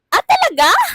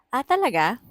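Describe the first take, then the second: First: It sounds startled and surprised. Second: It sounds mockingly cheerful and sarcastic.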